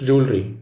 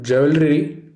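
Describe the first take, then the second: First: "jewelry" as JOOL-ree, two syllables; "jewelry" clean and short, JOOL-ree; right jewelry. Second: "jewelry" as JEW-vel-ree, wrong. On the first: Teacher showing students the right way, "jewelry" as JOOL-ree. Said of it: "it's jewelry". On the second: Teacher showing students the wrong way, "jewelry" as JEW-vel-ree. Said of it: "It is not jewelry". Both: Shown as a demonstration.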